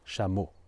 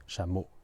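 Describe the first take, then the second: The two takes are said the same way.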